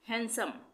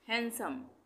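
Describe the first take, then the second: Both takes have the same delivery.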